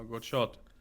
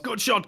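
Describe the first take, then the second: First: It is said quietly and casually, not shouted. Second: It is shouted loudly and with high energy. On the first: "just says" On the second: "actually shouts"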